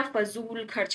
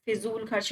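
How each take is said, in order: First: फजूल said "fa-zool" with a z; फजूल खर्च as "fazool kharch"; correct first vowel. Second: फिजूल said "fi-zool" with an i; फिजूल खर्च as "fizool kharch"; wrong first vowel. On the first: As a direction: open फजूल with a short "fa". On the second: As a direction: open फिजूल with a short "fi". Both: Shown as a demonstration. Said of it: "फिजूल खर्च नहीं होता".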